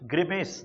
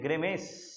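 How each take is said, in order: First: ग्रिमेस said as "grimes", with a short i in the first syllable; corrected ग्रिमेस, said firmly; corrected pronunciation. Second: ग्रिमेस said as "gremes", with an open e in the first syllable; first-try slip on ग्रिमेस; wrong pronunciation. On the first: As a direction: say ग्रिमेस clearly as "grih-mes". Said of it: "अब word सही है". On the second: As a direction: mispronounce ग्रिमेस as "greh-mes". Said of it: "sorry, अ, no, no". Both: Shown as a demonstration.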